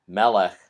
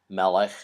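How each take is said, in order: Both takes have the same delivery.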